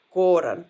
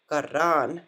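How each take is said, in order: First: Koran with a full o in the first syllable; Koran, the wrong way on purpose; wrong pronunciation. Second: Karan, first o reduced to ah; right pronunciation. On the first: Teacher shows students the mistake, louder demo. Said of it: "wrong way of saying it". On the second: Teacher shows students the correct way, careful. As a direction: Karan with the stress on ran. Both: Shown as a demonstration.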